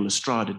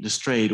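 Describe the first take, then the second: First: Lestrade said the Dutch way, with an open "ah" vowel; Dutch pronunciation. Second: Lestrade said the English way, rhyming with "trade"; anglicized surname. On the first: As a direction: say Lestrade as a Dutch surname, "le-STRAH-duh". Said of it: "to say his Dutch surname". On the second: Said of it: "depending on how you prefer to say". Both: Shown as a demonstration.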